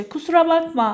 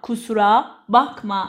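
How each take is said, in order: First: Said in the usual way. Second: Slow, word by word; slow teaching repeat. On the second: Shown as a demonstration. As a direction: split kusura from bakma for a learner. Teacher repeats phrase slowly, split. (آهسته و شمرده)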